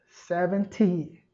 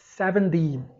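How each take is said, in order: First: It is said in a British accent. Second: It is said in an American accent. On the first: "no inglês britânico, setenta é seventy" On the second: "Já no inglês americano"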